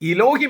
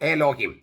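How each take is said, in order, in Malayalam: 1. ആദ്യത്തെ സ്വരാക്ഷരം 'i' ശബ്ദമാണ്. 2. ആദ്യത്തെ സ്വരാക്ഷരം 'e' ശബ്ദമാണ്. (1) "പക്ഷെ അത് ഉച്ചരിച്ചിരുന്നത് ഇലോഹിം എന്നായിരുന്നു" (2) "എലോഹിം എന്നാണ്"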